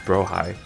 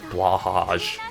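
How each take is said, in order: First: The name begins with a 'br' sound. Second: The name begins with a 'bl' sound. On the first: This follows the Japanese katakana pronunciation. The speaker calls it right. "it's actually pronounced Brohai" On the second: This follows how the spelling looks. The speaker calls it wrong. "people like to pronounce it like Blahaj because that's what it looks like"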